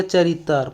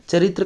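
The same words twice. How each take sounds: First: "चरित्र" as cha-rit-tar; tar for tra. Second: Said in the usual way. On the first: Shown as a demonstration. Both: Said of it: "तर की तरह होता है".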